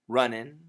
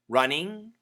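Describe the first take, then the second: First: The ending is reduced to an 'in' sound. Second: The ending is a full 'ing' sound. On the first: Slightly faster speech. "if we say it a little bit faster, it sounds like in" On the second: Careful, clear speech. "The first pronunciation is ing, which is perfect"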